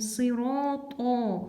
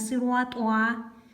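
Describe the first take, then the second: First: The second syllable has a plain 'to' sound. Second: The second syllable has a 'twa' sound. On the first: The speaker calls it right. "не та, не туа, а то" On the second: The speaker calls it wrong. "Сыруатуа мы не говорим"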